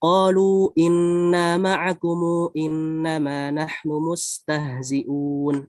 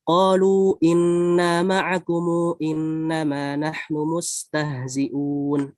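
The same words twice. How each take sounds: First: Long vowels held briefly; 'kum' stretched to 'kumu'. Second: The same.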